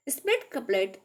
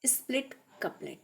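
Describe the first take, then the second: First: Said in the usual way. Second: Soft breathy whisper of the topic title; hushed whisper announcing the next topic; whispered heading. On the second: Real, not acted.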